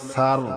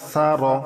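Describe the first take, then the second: First: The word ends on a stopped consonant. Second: The word ends on an open vowel sound. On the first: The reader stops at this word. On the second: The reading continues past this word.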